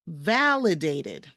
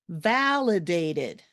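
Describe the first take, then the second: Both takes have the same delivery.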